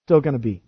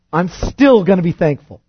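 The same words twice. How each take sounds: First: "Still" said again, softer and lower, falling; soft echo. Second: "still" pressed firmly, sentence falling; stress on still. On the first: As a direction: echo "Still gonna be" quietly to yourself. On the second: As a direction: lean hard on "still" and let it fall. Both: Shown as a demonstration.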